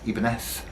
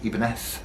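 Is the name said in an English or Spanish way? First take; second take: Spanish; Spanish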